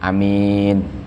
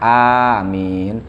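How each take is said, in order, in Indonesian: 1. Vokal pertama tetap pendek. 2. Vokal pertama dipanjangkan. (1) "dibaca takhfif" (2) "Dibaca mat"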